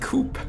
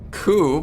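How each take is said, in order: First: The word ends with a P sound. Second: The word ends without a P sound.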